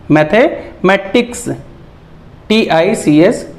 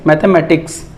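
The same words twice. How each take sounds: First: "mathematics" slowly, split as mathe-matics; slow reading demo of "mathematics" in chunks; broken into parts. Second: Said in the usual way. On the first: Shown as a demonstration. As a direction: pause midway through "mathematics". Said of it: "इसे तोड़-तोड़ के पढ़ना होता है". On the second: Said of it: "ये हो गया".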